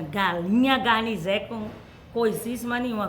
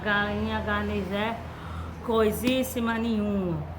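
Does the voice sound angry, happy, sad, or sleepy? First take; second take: happy; sleepy. First: It is said in a happy voice. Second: It is said in a sleepy voice. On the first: "Com muita alegria" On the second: "Com muito sono"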